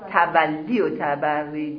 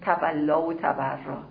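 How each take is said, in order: First: Both words end with an 'ee' vowel. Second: Both words end with an 'a' vowel. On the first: The speaker calls it right. "همون درستش چیه؟" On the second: The speaker calls it wrong. "یه وقت اشتباه میگن"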